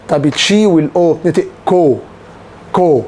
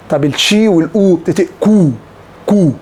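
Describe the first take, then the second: No difference in how they are said.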